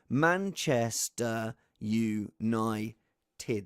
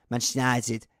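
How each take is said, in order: First: Manchester United drawn out very slowly, each of its syllables spelt out; slow, every syllable. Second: Manchester United clipped into one fast blur, mostly lost; squashed into one syllable. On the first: Host showing the six syllables, very slow. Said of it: "That is six syllables". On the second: Host mocking Neville's speed, squashed fast. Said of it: "He can do it in one syllable". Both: Shown as a demonstration.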